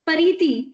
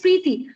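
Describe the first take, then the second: First: A vowel is inserted between the p and r. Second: The name starts with a tight pr cluster. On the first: The speaker calls it wrong. "what if somebody speaks my name Pariti? I, I'll get offended" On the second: The speaker calls it right. "my name is Preeti"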